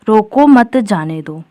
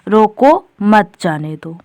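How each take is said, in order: First: It is said with no pause inside. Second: It has a pause right after roko. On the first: The meaning is unclear. "अब ये वाला वाक्य बोलने पर कुछ अर्थ स्पष्ट हो रहा है? नहीं" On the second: Stop the person; do not let them go. "यानी जो व्यक्ति है उसे रोक लो, जाने ना दो"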